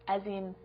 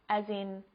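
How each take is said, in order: No difference in how they are said.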